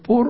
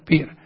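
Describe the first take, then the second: First: The vowel sounds like 'oo'. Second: The vowel sounds like 'ee'. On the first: This is how the transliterated spelling reads. "Lo que nosotros leemos transliterándolo pur" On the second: This is how a Greek speaker would say it. "un griego diría pir"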